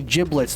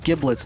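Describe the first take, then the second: First: The word begins with a J sound. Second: The word begins with a hard G sound. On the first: The speaker calls it right. "you say giblets" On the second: The speaker calls it wrong. "not giblets"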